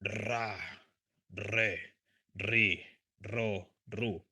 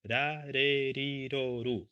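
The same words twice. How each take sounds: First: The r is a strong rolled trill. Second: The r is a single soft tap. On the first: "hard, strong one" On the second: "soft R"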